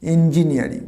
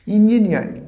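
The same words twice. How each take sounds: First: "ইঞ্জিনিয়ারিং" starting with an এ sound; correct pronunciation. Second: "ইঞ্জিনিয়ারিং" with an ই at the start, high and loud; wrong pronunciation. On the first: Teacher giving the right form to students, carefully. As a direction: begin "ইঞ্জিনিয়ারিং" with এ, not ই. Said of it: "ই নয়, এ". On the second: Teacher showing the class the wrong version, emphatic. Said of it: "না, this is not engineering". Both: Shown as a demonstration.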